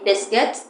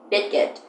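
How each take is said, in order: First: Said in the usual way. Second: "biscuit" said like "bitkit", with t for the s; "biscuit" with the middle s swapped for a t; baby mispronunciation. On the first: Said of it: "instead of saying biscuit". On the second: Shown as a demonstration. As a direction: mimic a toddler saying "biscuit" as "bitkit". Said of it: "they say biscuit".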